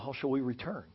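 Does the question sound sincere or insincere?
sincere. The question sounds sincere and humble.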